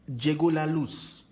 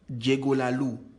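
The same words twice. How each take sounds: First: The final z of 'luz' is pronounced. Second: The final z of 'luz' is dropped.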